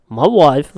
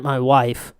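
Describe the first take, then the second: First: Louder, hammed-up echo; comic catchphrase voice. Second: Said in the usual way. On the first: Joking to co-host about his wife, catchphrase voice. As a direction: punch it out like a catchphrase. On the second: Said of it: "I knew you were gonna do it".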